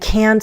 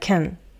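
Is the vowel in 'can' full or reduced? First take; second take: full; reduced. First: The word is said with a full vowel. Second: The word is said with a reduced vowel.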